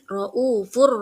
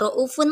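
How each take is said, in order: First: The word ends with an r sound. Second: The word ends with an n sound. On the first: The speaker calls it right. "tapi raufur rahim" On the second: The speaker calls it wrong. "Dibacanya tidak raufun lagi"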